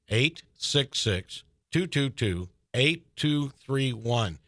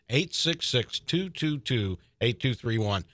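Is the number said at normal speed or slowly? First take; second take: slowly; normal speed. First: The number is said slowly. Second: The number is said at normal speed.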